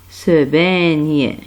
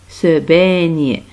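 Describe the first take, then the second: Both takes have the same delivery.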